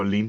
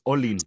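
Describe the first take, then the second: First: The stress is on the last syllable. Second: The stress is on the first syllable. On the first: This is how people have always called him. The speaker calls it wrong. "todos me han dicho Olin toda la vida" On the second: This is the name's true Nahuatl pronunciation. The speaker calls it right. "es grave, entonces en realidad es Olin"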